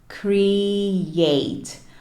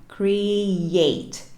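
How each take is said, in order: First: The second syllable starts with a y sound. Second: The second syllable starts with a y sound.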